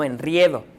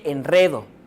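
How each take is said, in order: First: The stressed vowel is the diphthong ie. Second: The stressed vowel is a plain e. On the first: The speaker calls it wrong. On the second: The speaker calls it right. "Se dice"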